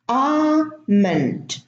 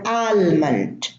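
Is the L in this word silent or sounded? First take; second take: silent; sounded. First: The L sound is left out of the word. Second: The L sound is pronounced in the word. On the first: The speaker calls it right. "The L is silent" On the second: The speaker calls it wrong. "many people say salmon or almond"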